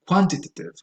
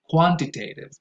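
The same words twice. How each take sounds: First: It is said with a British pronunciation. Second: It is said with a non-British pronunciation.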